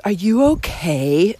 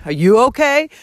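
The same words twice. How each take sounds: First: Slow, lightly imitated French accent; snotty French accent. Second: Retold, mildly angry comeback; angry retort. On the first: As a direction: mimic a snotty French girl's drawn-out question. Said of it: "In this, like, snotty French accent". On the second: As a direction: throw the question back, mildly indignant. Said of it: "I was so angry".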